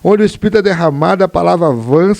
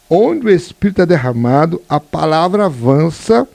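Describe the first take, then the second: First: It is spoken at a normal reading pace. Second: It is spoken slowly and deliberately.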